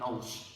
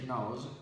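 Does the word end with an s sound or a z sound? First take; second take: s sound; z sound. First: The word ends with a hissing s sound. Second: The word ends with a buzzing z sound. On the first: The speaker calls it wrong. "not nose" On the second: The speaker calls it right. "how to say nose"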